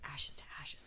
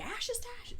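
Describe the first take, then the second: First: The words are said in a soft whisper. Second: The words are said in a loud scream. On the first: "You're just whispering at first" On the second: "until you're screaming"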